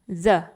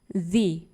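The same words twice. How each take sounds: First: It is said in the form used before consonants. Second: It is said in the form used before vowels. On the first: "bukan the, the skin" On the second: "Kalau di sini kata selanjutnya diawali dengan vokal"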